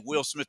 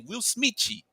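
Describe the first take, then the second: First: The name ends on the plain th sound. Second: The name ends with an added chee sound. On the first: "they don't say [name]" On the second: "They say Will Smitchy"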